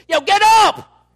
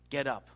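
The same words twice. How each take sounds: First: Sudden high, full-volume wake-up yell; booming, startling order from God; emphatic shout. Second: Said in the usual way. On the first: Shown as a demonstration. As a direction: bellow the command, drawn out. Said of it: "I think he said it like this". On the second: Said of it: "I don't think he said it quiet".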